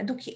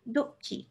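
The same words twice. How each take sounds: First: দুঃখী with only a faint catch before খী; barely touch the break in দুঃখী; very light visarga. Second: দুঃখী with a small catch before খী; little push on visarga. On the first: Teacher showing the child a lighter visarga. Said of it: "তো খুব হালকা করে". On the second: Teacher showing the visarga push to the child. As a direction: nudge the sound after দু in দুঃখী. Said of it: "একটু ধাক্কা দেওয়ার মতন". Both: Shown as a demonstration.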